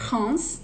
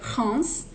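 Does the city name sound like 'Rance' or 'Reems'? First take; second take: Rance; Rance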